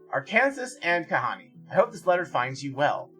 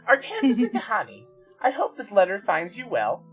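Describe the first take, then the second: First: It is read in a plain, ordinary voice. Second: It is read in a put-on character voice.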